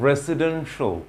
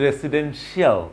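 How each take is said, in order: First: "রেসিডেন্সিয়াল" ending in a short "sho"; correct pronunciation. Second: "রেসিডেন্সিয়াল" with a full "shi-aal" ending; common mispronunciation. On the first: Teacher models the word for learners, correct pronunciation. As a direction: say "রেসিডেন্সিয়াল" as "resi-DEN-sho". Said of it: "it should be শো". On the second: Teacher mimics what learners say, mispronunciation. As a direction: say "রেসিডেন্সিয়াল" as "residen-shee-AL". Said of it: "আমরা বলি". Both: Shown as a demonstration.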